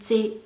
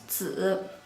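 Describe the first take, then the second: First: The word ends with a clear 'ee' vowel. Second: The word ends with a buzzing 'z' sound, no vowel. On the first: The speaker calls it wrong. "If final E makes sound, this word would sound like ziyi" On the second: The speaker calls it right. "The correct sound is 子"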